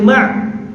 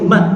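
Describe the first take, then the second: First: The syllable ends in a pharyngeal ain sound. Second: The syllable ends in a light glottal stop. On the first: The speaker calls it wrong. "Kalau ain kita baca ma'" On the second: The speaker calls it right. "mim alif hamzah tu bunyinya ma"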